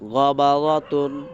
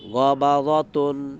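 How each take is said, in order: Both takes have the same delivery.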